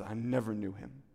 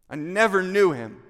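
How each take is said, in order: First: Said in the usual way. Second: Louder, higher, forceful disowning; emphatic denial. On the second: Acted. Peter disowning Jesus by the charcoal fire, emphatic denial. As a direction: throw the denial out hard, voice raised.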